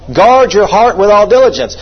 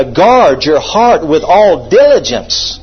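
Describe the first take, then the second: First: Said in the usual way. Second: Slow, weighty stress on "Guard", "heart" and "diligence"; "diligence" drawn out with emphasis; emphatic. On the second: Shown as a demonstration. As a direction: drive home "Guard your heart", word by word. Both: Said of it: "it's so emphatic".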